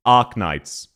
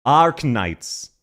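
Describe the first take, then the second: First: "Arknights" flat, like A-H-K; Australian pronunciation. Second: "Arknights" with the R pronounced; imitated R. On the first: Shown as a demonstration. Streamer shows the Australian way, R dropped. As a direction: say "Arknights" lower and without the R. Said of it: "more like A H K". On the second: Copying the clip as an example, R pronounced. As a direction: draw out "Ar" with an R in "Arknights". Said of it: "I will try to use Arknights".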